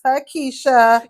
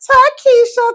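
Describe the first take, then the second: First: The name is said in a low voice. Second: The name is said in a high voice. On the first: This is how she said her name today. "Today you was like" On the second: This is how she usually says her name. "Usually you like"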